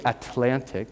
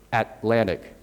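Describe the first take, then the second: First: "Atlantic" with the first T let out in a puff; released T. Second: "Atlantic" with the first T held, second T flapped; unreleased T. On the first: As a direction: say "Atlantic" as a-T-lantic, T fully released. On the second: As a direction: say "Atlantic" as At-lan'ic, first T stopped. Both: Shown as a demonstration. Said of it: "You don't release the T".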